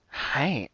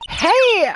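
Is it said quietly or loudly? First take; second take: quietly; loudly. First: It is said at normal, quieter volume. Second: It is said louder, almost shouting.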